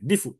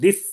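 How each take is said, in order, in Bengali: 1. শব্দটি একটি ক্ষীণ, সংক্ষিপ্ত স্বরধ্বনি দিয়ে শেষ হয়। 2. শব্দটি ব্যঞ্জনের উপর হঠাৎ শেষ হয়ে যায়। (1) "রুম হিসেবে দিফু" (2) "হামজাকে ফেলে দিয়ে হামজার হরকত আগের করে নিয়ে এসে অফ করা"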